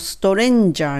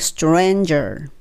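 First: Japanese-style vowels are inserted between the consonants. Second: The consonants are said without inserted vowels. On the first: The speaker calls it wrong. "このストレンジャーにならないように" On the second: The speaker calls it right. "R を聞かせてstranger"

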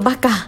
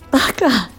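First: It is said in a sulky, pouty tone. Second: It is said in a tearful, crying voice. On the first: The speaker is seeking attention after being worried. "甘えた感じみたいに言う時も" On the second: The speaker is hurt or upset. "今ちょっと泣き顔で言ってみましたけれども"

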